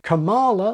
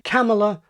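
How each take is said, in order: First: The stress is on the second syllable. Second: The stress is on the first syllable. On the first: "Kamala like koala" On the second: "stress the first syllable, pronouncing it with the vowel of gather and trap"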